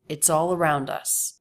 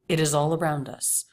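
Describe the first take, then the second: First: One contracted word begins the phrase. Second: Two separate words begin the phrase. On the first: It sounds natural and conversational. The speaker calls it right. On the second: It sounds stylized and formal. The speaker calls it wrong.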